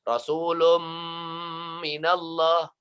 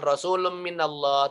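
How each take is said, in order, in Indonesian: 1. Bunyi n dileburkan ke bunyi m yang ditahan dan bersengau. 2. Bunyi n dibaca terpisah, tidak dilebur atau ditahan. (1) "Tapi dimasukkan ke dalam. Tanwinnya ke dalam mim... Dan ditahan" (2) "Cara bacanya bukan Rasulum minallah"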